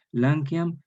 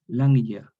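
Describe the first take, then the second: First: "Lanceam" said as Latin lan-kjam, rising; Latin form. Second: "lanya" with a y-like sound, a bit louder; evolved form. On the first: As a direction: read "Lanceam" as the Latin source word. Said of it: "Como por ejemplo". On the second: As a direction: say "lanya" with the new yod sound. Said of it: "suena como una cuasi Y". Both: Shown as a demonstration.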